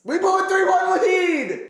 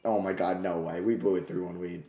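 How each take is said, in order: First: Much higher and louder, slow furious yell; angry shout. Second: Quiet, low, deflated; stunned disbelief. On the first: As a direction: yell it at the screen in frustration. Shouts lost lead after quiet take. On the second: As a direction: say it like the air left you. Lead just blown, quiet shock. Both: Real, not acted.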